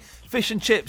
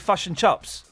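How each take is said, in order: First: It is said in an Australian accent. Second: It is said in a New Zealand accent. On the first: "Australians say fish and chips" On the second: "New Zealanders say fush and chups"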